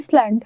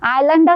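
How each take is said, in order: First: It starts with an is sound, s pronounced. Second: It starts with an eye sound, no s. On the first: The speaker calls it wrong. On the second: The speaker calls it right.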